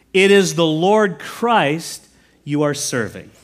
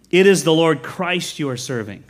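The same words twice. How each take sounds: First: Slow, weighty scripture reading; slow emphatic reading. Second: Said in the usual way. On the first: Shown as a demonstration. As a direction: lean on each word of "It is the Lord Christ you are serving".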